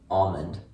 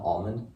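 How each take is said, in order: First: The word is said without an L sound. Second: The word is said with an L sound. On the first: "a lot of people just call it almond without really pronouncing the L" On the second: "I pronounce L"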